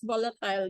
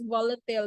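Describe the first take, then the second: First: It is said with a British pronunciation. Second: It is said with an American pronunciation. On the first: "But if British English, that's volatile" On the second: "If you want American English, that's volatile"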